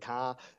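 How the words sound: It is said in a northern English accent. "or even the north of England"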